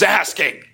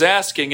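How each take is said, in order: First: "asking" punched loud and hard; demanding emphasis. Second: Said in the usual way. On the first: Shown as a demonstration. Preacher contrasting two kinds of asking, "asking" loud and demanding. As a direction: hit "asking" forcefully, as a demand.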